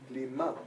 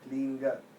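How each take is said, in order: First: The word ends with an m sound. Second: The word ends with an ng sound. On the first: It asks for the soul to be taken up to God. "Klima is my soul go to Ishta Devata" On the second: It asks God to come down to the soul. "No M"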